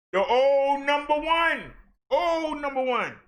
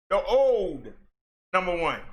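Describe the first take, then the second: First: Raised and slowed, savouring the phrase; pitched high, slowed, mock-ceremonial; dramatic emphasis. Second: Said in the usual way. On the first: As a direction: drag out the old title for effect. Dramatic callback to former leader.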